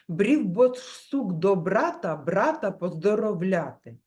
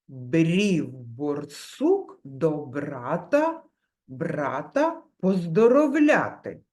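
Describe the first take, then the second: First: The phrase is spoken quickly. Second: The phrase is spoken slowly. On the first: "І ще швидше" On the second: "Спочатку промовляємо повільно"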